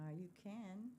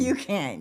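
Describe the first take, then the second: First: It is said flatly, without enthusiasm. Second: It is said with lively enthusiasm.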